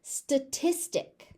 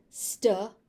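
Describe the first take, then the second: First: Said in the usual way. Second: "Statistic" split into stuh, tis, tik; teaching breakdown of "Statistic"; syllable by syllable. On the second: Shown as a demonstration. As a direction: pause between the three syllables of "Statistic".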